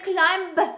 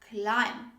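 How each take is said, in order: First: A b sound is pronounced at the end. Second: The word ends without a b sound. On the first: The speaker calls it wrong. "Don't say climb" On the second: The speaker calls it right. "we don't say the B sound"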